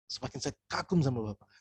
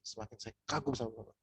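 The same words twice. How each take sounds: First: Said in the usual way. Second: Leaning in, much softer, admiring; soft admiring line. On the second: Shown as a demonstration. To a proud prospect, leaning in with soft admiration. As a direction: say it low and close, like a confidence. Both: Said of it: "Intonasi kalimatnya itu juga perlu diatur".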